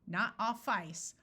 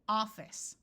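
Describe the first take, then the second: First: The second syllable has a long I sound. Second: The second syllable has a short I sound. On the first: The speaker calls it wrong. "It does not make the I have its long sound" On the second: The speaker calls it right. "this I becomes a short I"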